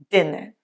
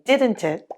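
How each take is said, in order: First: The first t in didn't is dropped. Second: The first t in didn't is pronounced. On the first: "drops to sound like didn't it" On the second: "the first T in didn't it"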